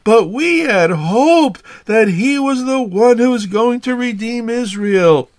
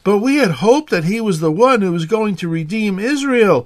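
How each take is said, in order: First: It is read in a gloomy, depressed tone. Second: It is read in a neutral tone.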